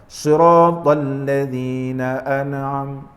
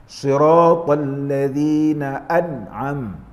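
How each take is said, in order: No difference in how they are said.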